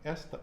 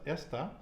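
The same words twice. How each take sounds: First: The stress is on the first syllable. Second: The same.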